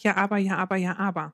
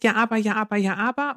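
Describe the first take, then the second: First: Leiser, fallender Nachahmer des Kindes; Mutter äfft nach. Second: Leicht gespieltes Kind, das widerspricht; Kind, das nörgelnd dagegenhält; quengelndes Kind. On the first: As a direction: gibt das Quengeln leise und abfallend zurück. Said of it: "und ich sag". (Mutter spiegelt das Kind leise nachäffend) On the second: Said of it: "Das Kind sagt". (Kind, das der Mutter quengelnd widerspricht) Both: Retold or imitated.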